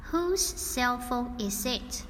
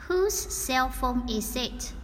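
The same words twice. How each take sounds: The two takes are said the same way.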